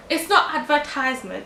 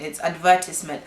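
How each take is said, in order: First: ADVERTISEMENT said as ad-ver-TIZE-ment; long "tize" in advertisement; rejected pronunciation. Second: ADVERTISEMENT with the teacher's stress on VER; teacher's correction. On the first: Imitating a TV man correcting people, the wrong version. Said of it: "he will say that". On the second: Quoting a teacher correcting a pupil, corrective. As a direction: stress the second syllable of advertisement. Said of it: "teacher who used to say". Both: Retold or imitated.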